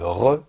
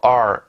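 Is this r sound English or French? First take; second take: French; English. First: The r is a French throaty r. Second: The r is an English r. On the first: The speaker calls it wrong. "mais euh, re" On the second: The speaker calls it right. "vous dites pas R"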